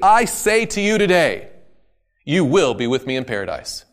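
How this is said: The pause comes after the word today.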